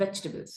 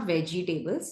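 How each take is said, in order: First: Vegetables in three short syllables, "VECH-tuh-bulz"; correct pronunciation. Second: Vegetables said as "VE-jee-TAY-bulz"; wrong pronunciation. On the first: Teacher models the right word, correct short pronunciation. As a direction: compress vegetables, no "jee" or "tay". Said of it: "it's vegetables". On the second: Teacher shows what not to say, wrong long pronunciation. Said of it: "it's not vegetables". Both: Shown as a demonstration.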